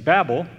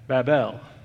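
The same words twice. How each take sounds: First: The word is said as one blended unit. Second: The word is split, with El said separately. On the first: "rather than saying Babel" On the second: "I say Babel"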